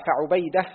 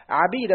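First: فعبيدة as fa-ʿubayda, u then ay; damma on ayn. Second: عبيد as ʿabīda, short a then long ī; fatha on ayn. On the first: Student reading names to his teacher, فعبيدة as fa-ʿubayda. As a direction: round the ع of فعبيدة with u. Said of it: "بالضم". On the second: Student reading names to his teacher, عبيد as ʿabīda. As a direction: open the ع of عبيد with a. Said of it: "بفتح العين". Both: Shown as a demonstration.

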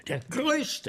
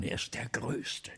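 First: Much higher, exultant; rapturous cry. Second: Slow hushed awe; awed whisper; reverent whisper. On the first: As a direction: burst out in admiration. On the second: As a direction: whisper it like a secret. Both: Acted. Praising the great actor.

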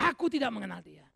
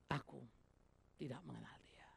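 First: Louder, forceful declaration; loud denial. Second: Hushed whisper, voice dropped away; whispered denial. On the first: Peter denying his master, now declared loudly. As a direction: throw the denial out boldly. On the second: Peter denying his master, whispered softly. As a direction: breathe it out secretly, afraid to be heard. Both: Acted.

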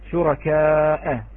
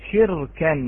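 First: شركاء read slowly and louder, long aa and final hamza; slow, louder شركاء, hamza kept. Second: شركا with kasra on the shin, silent ra, and nunation on the kaf, said shirkan; short, louder شركا in the Warsh form; Warsh reading. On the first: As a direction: stretch شركاء with the hamza sounded. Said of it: "بحذف الهمزة". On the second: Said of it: "لاحظوا كيف تغيرت". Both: Shown as a demonstration.

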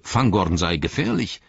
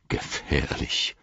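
First: Said in the usual way. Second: Slow, hushed, low repeat; ominous echo. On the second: A narrator's reading. Gandalf takes up Gimli's word dangerous, ominously hushed. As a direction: draw the word out softly and darkly. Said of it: "rief Gandalf".

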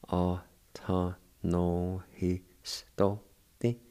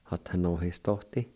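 First: Atanohistote spoken very slowly, syllables stretched; very slow demo. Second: Said in the usual way. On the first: Shown as a demonstration. Teacher models the word very slowly for students. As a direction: drag out Atanohistote for learners. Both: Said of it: "It's pronounced like this".

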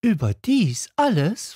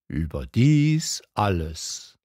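First: Put-on much higher, incredulous child voice; can it really be all that; little prince asking in wonder; amazed little prince. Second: King answering slowly and grandly; solemn king. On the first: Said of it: "fragte der kleine Prinz". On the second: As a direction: settle it with majesty. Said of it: "antwortete der König". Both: A narrator's reading.

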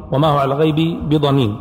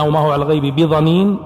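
First: بضنين said with an emphatic th (bi-ẓanīn); reading with tha. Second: بضنين said with a heavy emphatic d; reading with dad. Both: Shown as a demonstration. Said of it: "وكذلك عندنا".

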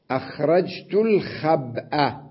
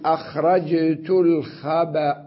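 First: الخبأ as al-khab'a, still ب then hamza with a; slow, separated al-KHAB-'a for الخبأ; unstopped full form. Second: الخبأ as al-khaba', cut on a final hamza; pause with vowel transfer. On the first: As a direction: keep the ب of الخبأ vowelless and voice the final a. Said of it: "أنا الآن سأقف عليها". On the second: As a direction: slowly, put an a on the ب of الخبأ. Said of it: "سأقف عليها وأنقل حركة الهمزة". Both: Shown as a demonstration.

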